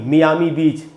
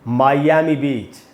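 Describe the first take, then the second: First: Miami begins with a 'mee' sound. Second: Miami begins with a 'my' sound. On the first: The speaker calls it wrong. "एकदम ही गलत pronunciation है" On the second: The speaker calls it right. "इसका correct pronunciation है मायामी"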